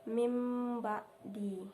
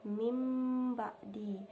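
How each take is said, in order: The two takes are said the same way.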